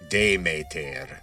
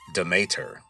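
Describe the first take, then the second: First: The name is said with ancient Attic Greek sounds. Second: The name is said with ordinary English sounds.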